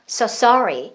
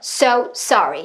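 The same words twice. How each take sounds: First: The word sorry gets more force. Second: Both words get equal force, sounding choppy. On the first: The speaker calls it right. "sorry에다 더 뱉으면" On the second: The speaker calls it wrong. "똑같은 힘으로 뱉으면 끊어져요"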